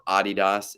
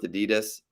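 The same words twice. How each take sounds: First: It is pronounced the European way. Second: It is pronounced the usual non-European way.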